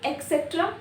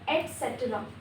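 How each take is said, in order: First: The word begins with an 'eks' sound. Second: The word begins with an 'et' sound. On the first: The speaker calls it wrong. "एक्सेट्रा no" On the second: The speaker calls it right. "एक्स नहीं आएगा"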